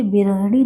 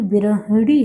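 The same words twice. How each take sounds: First: Said in the usual way. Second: "बिरहड़ी" stretched slowly, syllable by syllable; slow, careful "बिरहड़ी" with a clear flapped ड़ी; corrected pronunciation. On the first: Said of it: "क्योंकि ये बिरहणी नहीं". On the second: Shown as a demonstration. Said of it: "ये बिरहणी नहीं".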